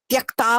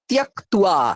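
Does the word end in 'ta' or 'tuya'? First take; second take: ta; tuya. First: The word ends in a plain 'ta' sound. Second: The word ends in a 'tuya' sound. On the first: The speaker calls it wrong. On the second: The speaker calls it right.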